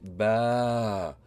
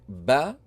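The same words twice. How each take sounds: First: The vowel after b is drawn out long. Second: The vowel after b is short. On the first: "with an extension" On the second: "like the short vowel fatha"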